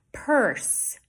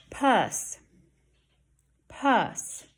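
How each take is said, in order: First: Purse with a clear er; "Purse" with er fully sounded; correct R. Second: Purse said as "Puss", vowel only; "Puss", short uh in place of er. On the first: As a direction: hold the R in "Purse". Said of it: "That has the E R". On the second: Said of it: "I didn't hear an R". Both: Shown as a demonstration.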